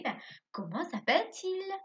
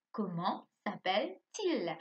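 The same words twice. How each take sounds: First: Comment s'appelle-t-il said high, as a real question to a pupil; asking question. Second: Comment s'appelle-t-il spoken slowly with a falling end; slow model question. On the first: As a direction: ask comment s'appelle-t-il brightly and higher. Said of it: "Je vais te demander". (question posée plus haut à l'élève) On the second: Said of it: "Ça, c'est une question". (question lente, fin descendante) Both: Shown as a demonstration.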